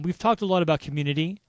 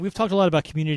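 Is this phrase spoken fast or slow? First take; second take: slow; fast. First: The phrase is spoken slowly. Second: The phrase is spoken quickly. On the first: The speaker calls it right. "Just got to slow it down" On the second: The speaker calls it wrong. "I said that really fast"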